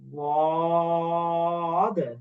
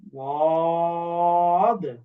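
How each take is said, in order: Both takes have the same delivery.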